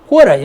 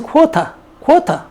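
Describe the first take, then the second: First: "quarter" the American way, T softened to an r; American "quarter" with its R sounded; American pronunciation. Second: "쿼터" as British quarter, R dropped; British "쿼터" with a hard T; British pronunciation. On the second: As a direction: say "쿼터" British-style, no R at the end. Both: Shown as a demonstration. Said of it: "영국에서 쿼터".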